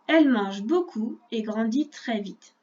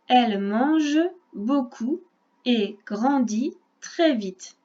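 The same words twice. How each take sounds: First: The sentence is read at a faster pace. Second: The sentence is read at a slower pace.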